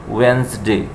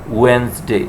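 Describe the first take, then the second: Both takes have the same delivery.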